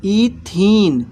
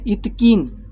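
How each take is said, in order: First: इथीन drawn out very slowly and a bit louder, ee-theen; teacher models इथीन slowly and clearly for students; correct pronunciation. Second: इथकीन said as ith-keen, the form to avoid; teacher voices the wrong name इथकीन for the class; wrong pronunciation. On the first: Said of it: "इथीन बोलते हैं". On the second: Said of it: "इथकीन तो नहीं बोलेंगे". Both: Shown as a demonstration.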